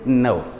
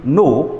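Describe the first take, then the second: First: The vowel glides as a diphthong. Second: The vowel is a single pure sound. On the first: The speaker calls it right. "you say no" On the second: The speaker calls it wrong. "Instead of saying no"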